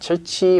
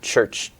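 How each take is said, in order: First: An extra vowel follows the final ch sound. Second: The word ends cleanly on the ch sound. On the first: The speaker calls it wrong. "not churchy" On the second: The speaker calls it right. "but church, tongue curled up"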